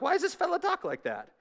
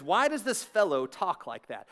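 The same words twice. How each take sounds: First: High-pitched mock Southern accent. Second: Said in the usual way. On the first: Preacher joking that the verse sounds Southern, mock Southern accent. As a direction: ham it up as a soft, high Southerner. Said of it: "That sounds like Southern language". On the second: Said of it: "That does not sound like first century language".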